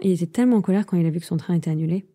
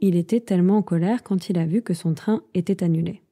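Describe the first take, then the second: First: The sentence is said quickly. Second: The sentence is said at a normal pace.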